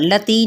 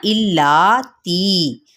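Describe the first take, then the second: First: लती clipped without the doubled l; wrong way. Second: इल्लाती very slow with held double l and long aa; correct doubling. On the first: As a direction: say लती short with a single l. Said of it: "लती नहीं कहना". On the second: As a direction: stretch इल्लाती, hold the ll. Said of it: "equally खींचेंगे". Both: Shown as a demonstration.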